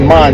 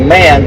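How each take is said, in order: First: The name is said with German pronunciation. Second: The name is said as an English word. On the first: This is how the name is pronounced in its home language. "that's how you pronounce it in German" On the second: This is how other people say the name. "They say man"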